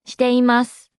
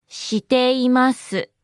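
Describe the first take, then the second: First: Said in the usual way. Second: Every syllable separate and lengthened. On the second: Shown as a demonstration. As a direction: draw it out for learners. Slow repeat for learners.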